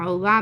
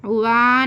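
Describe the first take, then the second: First: "उवा" ending on a short "va"; short stopped vowel. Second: "उवा" with a long final "aa"; wrong long vowel. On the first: Teacher showing where to rest, उवा kept short. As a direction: stop briefly on "उवा" without stretching it. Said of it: "बोलकर टिका देना". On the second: Teacher showing what not to read, उवा dragged long. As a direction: stretch "उवा" into "uvaaa". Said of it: "उवा नहीं पढ़ना". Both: Shown as a demonstration.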